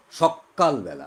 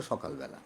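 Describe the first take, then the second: First: সকালবেলা said with a held double k, শক্কালবেলা; doubled k. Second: Said in the usual way. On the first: Shown as a demonstration. Teacher shows class a doubled-k সকালবেলা. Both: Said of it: "আসলে সকালবেলা".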